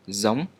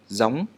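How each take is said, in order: The two takes are said the same way.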